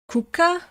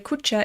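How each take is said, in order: First: The word is pronounced in a non-Croatian way. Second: The word is pronounced the Croatian way. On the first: A cone-shaped temporary hut. "how do you pronounce this?" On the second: A house or dwelling. "if you pronounce it in the Croatian way"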